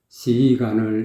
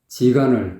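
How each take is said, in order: First: The first sound is a soft s sound. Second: The first sound is a hard j sound. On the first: The speaker calls it right. "시간을 이렇게 해야 되는데" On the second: The speaker calls it wrong. "지간을 그랬어요"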